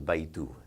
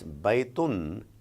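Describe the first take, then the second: First: The word ends without an n sound. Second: The word ends with an n sound. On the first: "You remove that sound" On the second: "there is a sound of noon"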